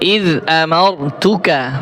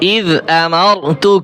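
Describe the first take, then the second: First: The phrase ends with a final vowel sound. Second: The phrase ends on a bare consonant. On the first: The reader continues without stopping. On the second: The reader stops at this word.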